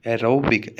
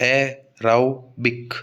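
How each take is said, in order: First: Said in the usual way. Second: एरोबिक slowly split into e-rau-bik; syllable by syllable. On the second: Shown as a demonstration. Teacher locating the stressed syllable for students, एरोबिक syllable by syllable as e-rau-bik. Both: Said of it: "तो राउ पर आएगा".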